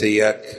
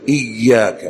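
First: The y sound is short and single. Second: The y sound is doubled and held. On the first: The speaker calls it wrong. "وليس إياك" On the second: The speaker calls it right. "يشدد يقول إياك"

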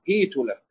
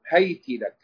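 First: The h takes i and the t takes u. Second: The h takes a and the t takes i. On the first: "بكسر أوله وضم آخره" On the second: "بفتح أوله وكسر آخره"

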